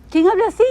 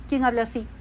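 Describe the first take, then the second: First: Louder and higher, a ringing challenge to the room; pitched-up, louder repeat of ¿Quién habla así?; raised challenge. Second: Soft question. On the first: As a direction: throw the question out like a preacher's call. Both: Acted. Rhetorical question asked twice.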